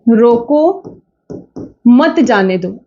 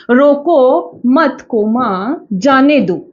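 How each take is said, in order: First: रोको alone, long pause, then मत जाने दो run together; pause after रोको. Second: रोको मत held together, spoken coma, then जाने दो apart; group रोको with मत, break before जाने दो; comma after मत. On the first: Teacher contrasts the second sentence for students, long pause after रोको. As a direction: break hard after रोको, join मत to जाने दो. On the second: Teacher shows students how a comma changes meaning, break after मत. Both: Shown as a demonstration. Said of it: "केवल एक कोमे का अंतर है".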